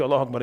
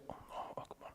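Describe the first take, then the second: First: Said in the usual way. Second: Allahu Akbar breathed softly while standing; whispered takbir. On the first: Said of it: "You say". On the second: Shown as a demonstration. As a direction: whisper the takbir just to yourself. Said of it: "you stand in line and you say".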